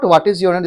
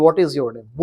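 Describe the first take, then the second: First: WHAT said "vaat", v-like with an open a; wrong w in what. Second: WHAT said "wot" with rounded lips, lower. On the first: Teacher showing class the usual mistake, mispronounced what. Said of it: "This is not". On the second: Teacher modelling the right way for class, correctly rounded what. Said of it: "this is". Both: Shown as a demonstration.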